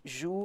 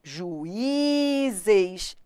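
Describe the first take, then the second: First: "Juízes" split as ju, í, zes; syllable by syllable. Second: "Juízes" with a long, drawn-out Í; stress on I. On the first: Teacher separating syllables for students, one at a time. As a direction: pause between each syllable of "Juízes". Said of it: "separar as sílabas". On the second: Teacher testing the tonic vowel, long held Í. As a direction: stretch the "í" in "Juízes". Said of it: "tem que ser tônico". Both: Shown as a demonstration.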